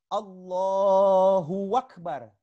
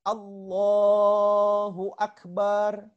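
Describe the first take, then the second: First: A w sound is added in the middle. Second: The 'ba' syllable is drawn out long. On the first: "ditambah huruf waw di tengahnya" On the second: "huruf ba-nya dipanjangkan"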